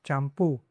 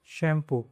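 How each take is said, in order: First: चैम्पू with the last syllable stressed, champÚ; चैम्पू said Spanish-style, stress at the end; stress on the final u. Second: Said in the usual way. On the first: Shown as a demonstration. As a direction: lean on the ending of चैम्पू. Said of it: "इसको stress करना है".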